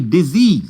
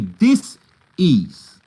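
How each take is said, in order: First: It is said as one smooth word. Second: It is split into dis and ease. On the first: The speaker calls it wrong. "don't say disease" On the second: The speaker calls it right. "the right pronunciation"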